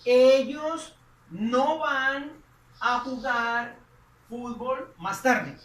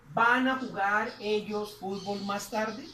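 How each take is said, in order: First: Drawn out, louder on Ellos; slow, emphatic Spanish gloss; slow translation. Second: Slow, rising teacher question; slow model question. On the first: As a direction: say the translation slowly and clearly. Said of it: "Ahí estaríamos diciendo". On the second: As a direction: read the translated question slowly. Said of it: "Estaríamos diciendo ahí". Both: Shown as a demonstration.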